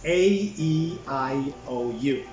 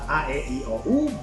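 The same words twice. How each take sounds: First: The letters are named with English vowel sounds. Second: The letters are named with non-English vowel sounds. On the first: The speaker calls it right. "We are talking about English" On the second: The speaker calls it wrong. "it's not"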